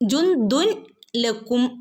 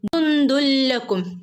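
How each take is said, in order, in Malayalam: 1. n ശബ്ദം l-ന് മുമ്പ് വേറിട്ട് ഉച്ചരിക്കുന്നു. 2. n ശബ്ദം ഇരട്ടിച്ച l ശബ്ദത്തിൽ ലയിക്കുന്നു. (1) "എന്ന് ഓതില്ല കേട്ടോ" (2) "കൂട്ടിച്ചേർത്ത് ഓതി പോവുക"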